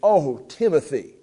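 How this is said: It is said with pleading emotion.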